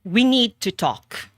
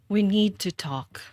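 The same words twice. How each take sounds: First: It sounds like a stern boss. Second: It sounds sad, like saying goodbye.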